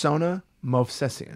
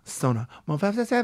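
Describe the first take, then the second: First: It is said in his normal voice. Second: It is said in a Spanish dancer voice.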